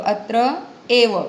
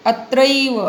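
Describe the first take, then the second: First: अत्र, pause, एव as two words; split sandhi form. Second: अत्रैव said as one joined word; joined sandhi form. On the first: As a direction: separate अत्र from एव with a short pause. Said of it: "बघा पुढचा शब्द आठवला". (अत्र एव असा तोडून उच्चार) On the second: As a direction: run अत्र and एव together as अत्रैव. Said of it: "संधी लक्षात येतोय का?". (अत्रैव संधीसह एकत्र उच्चार) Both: Shown as a demonstration.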